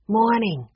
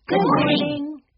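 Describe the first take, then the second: First: A touch of a grudging mutter; brief, half-muttered greeting back; muttered reply. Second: High, cheery greeting; pleasant call. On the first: Busy worker answers the children, lightly muttered. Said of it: "Sheila muttered". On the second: Children greet the concession worker, calling pleasantly in high voices. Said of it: "the Aldens called pleasantly". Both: A narrator's reading.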